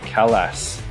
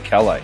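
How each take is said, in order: First: The final S is sounded. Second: The final S is silent. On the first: "Some people call it a Calas" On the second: "It's a silent S"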